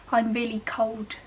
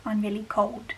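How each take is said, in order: First: "cold" with a W sound instead of the L; "cold" said like "cowd". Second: "cold" with a clearly sounded L; "cold" said the standard way, L before the d. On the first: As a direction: turn the L in "cold" into a W. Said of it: "with a W instead of an L". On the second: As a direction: keep the L in "cold". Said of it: "instead of". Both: Shown as a demonstration.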